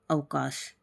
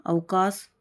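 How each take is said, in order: First: अवकाश ending in a sh; correct form of अवकाश. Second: अवकाश ending in a plain s; wrong form of अवकाश. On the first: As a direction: say अवकाश lower, closing on sh. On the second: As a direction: say अवकाश as avkaas, tune rising. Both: Shown as a demonstration. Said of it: "शलजम वाला से आएगा".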